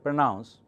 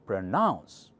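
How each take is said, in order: First: The stress is on the first syllable. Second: The stress is on the second syllable. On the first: The speaker calls it wrong. "that doesn't sound right" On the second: The speaker calls it right. "that's the right accent"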